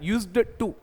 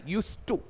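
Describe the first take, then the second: First: A d sound is pronounced with a stop. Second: No d sound; it flows as 'use to'. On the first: The speaker calls it wrong. "यूज्ड टू बोलते तो हम डी पे रुकेंगे तो मजा नहीं, यूज्ड टू नहीं" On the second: The speaker calls it right. "ऐसा आता है यूज टू"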